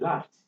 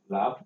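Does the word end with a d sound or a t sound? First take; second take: t sound; d sound. First: The word ends with a voiceless t sound. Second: The word ends with a voiced d sound. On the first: The speaker calls it right. "It is better to say laughed" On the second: The speaker calls it wrong. "you want to add ed to it, then you are expected to produce something in the form of laugh, which is not going to be easy"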